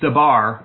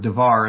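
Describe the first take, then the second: First: The middle consonant is a b sound. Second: The middle consonant is a v sound. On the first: "I prefer the Beth pronunciation personally" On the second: "or devar as some pronounce it"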